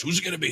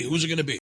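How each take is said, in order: First: Higher hyped announcer call; monster truck ad. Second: Higher hyped announcer call, repeated; monster truck ad. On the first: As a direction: build hype like a radio promo. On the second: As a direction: keep the radio promo hype going. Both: Retold or imitated. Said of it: "that monster truck announcer type voice".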